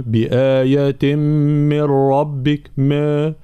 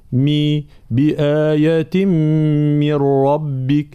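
First: بآية من ربك with the i vowels loosened toward e; slow faulty recitation of بآية من ربك; wrong slack kasra. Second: بآية من ربك recited slowly with pure i vowels; higher, drawn-out correct recitation; clear kasra. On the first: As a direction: blur the vowel of من, as in ما. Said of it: "لا نقول". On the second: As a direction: isolate مي, then keep its sharp i in من ربك. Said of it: "هكذا، فالانتباه". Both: Shown as a demonstration.

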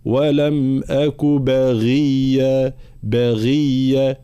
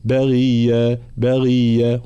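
First: Very slow chant, clear voiced ghayn in "بغية"; fully voiced ghayn. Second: Recited "بغية" with a weak, indistinct ghayn; unclear ghayn. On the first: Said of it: "هكذا". (غين مجهورة واضحة في "بغية") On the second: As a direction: let the ghayn in "بغية" blur toward khaa. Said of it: "هنا الغين غير واضح". (غين غير واضحة في "بغية") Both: Shown as a demonstration.

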